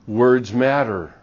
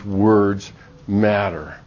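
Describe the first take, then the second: First: "Words matter" said slowly with weight on "Words"; emphasis on words matter. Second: "words matter" drawn out very slowly, "words" hit hard; very slow emphatic repeat. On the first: Preacher stressing to the congregation, slow emphatic. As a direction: lean into "Words", then let "matter" fall. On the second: Preacher driving the point home to the congregation, very slow stress. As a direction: stretch "words matter" out to land it. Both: Shown as a demonstration.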